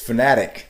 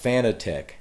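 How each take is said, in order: First: The name ends with a 'tick' sound. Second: The name ends with a 'tech' sound. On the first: The speaker calls it right. "the company itself pronounces it as fanatic" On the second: The speaker calls it wrong. "not Fanatec"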